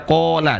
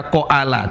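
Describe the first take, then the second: First: "kola" with one long vowel; the right single long vowel; correct reading. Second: "koala" split into two vowels; the mistaken reading, o then a; wrong reading. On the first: Teacher gives students the right reading. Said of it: "tapi dibaca kola". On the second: Teacher warns students off this reading. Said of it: "tidak dibaca koala". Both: Shown as a demonstration.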